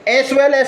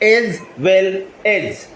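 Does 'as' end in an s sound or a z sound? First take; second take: s sound; z sound. First: Each 'as' ends with an s sound. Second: Each 'as' ends with a z sound. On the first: "एस well एस भी बोल सकते हैं" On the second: "एस का जो sound हो रहा है वो जैका होता है"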